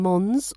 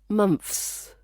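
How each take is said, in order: First: The th sound is replaced by an s. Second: The th sound is replaced by an f. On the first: "Chinese speakers might substitute the th with s" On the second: "Russian speakers sometimes replace it with f"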